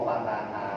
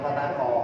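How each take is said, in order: First: The final vowel sounds like a. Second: The final vowel sounds like o. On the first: The speaker calls it right. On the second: The speaker calls it wrong. "Bukan fataho"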